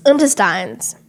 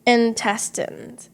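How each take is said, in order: First: "Intestines" ending "-tines" like lines; intestines said wrong. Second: "Intestines" slow, ending short "-tins"; intestines the right way. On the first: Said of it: "I've always been saying intestines". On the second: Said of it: "what do you stress it on". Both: Shown as a demonstration.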